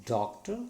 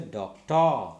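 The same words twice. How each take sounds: First: "Doctor" with firm DOC, short light ta; first-syllable stress. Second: "doctor" with TA loud and drawn out; second-syllable stress. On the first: Teacher corrects learners, "Doctor" stressed on DOC. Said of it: "stressing the first syllable". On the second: Teacher shows what to avoid, "doctor" stressed on TA. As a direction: throw the weight onto the end of "doctor". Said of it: "Don't say doctor". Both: Shown as a demonstration.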